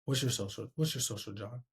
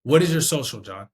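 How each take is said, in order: First: Low, soft, fading question; meek, underpowered request; unconfident ask. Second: Loud, clearly worded question; sure, projected request; confident ask. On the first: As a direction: ask it twice, quietly trailing away. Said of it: "I sound way different saying". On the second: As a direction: ask it firmly, every word in place. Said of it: "You can hear in my voice that I sound confident". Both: Shown as a demonstration.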